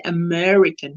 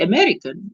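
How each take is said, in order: First: AMERICAN with the R made by lifting the tongue's sides; bunched-tongue R in AMERICAN; tongue-lifted R. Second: AMERICAN with the tongue lying flat through the R; relaxed, uncurled R in AMERICAN. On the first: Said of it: "my tongue has to lift on the sides". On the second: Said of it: "my tongue has to do nothing". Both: Shown as a demonstration.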